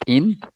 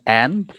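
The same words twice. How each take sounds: First: The vowel is the short i sound. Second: The vowel is the open e sound. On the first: The speaker calls it wrong. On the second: The speaker calls it right. "Get the wrong end"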